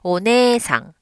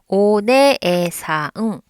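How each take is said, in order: First: The beats run together smoothly. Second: Each beat is pulled apart slowly.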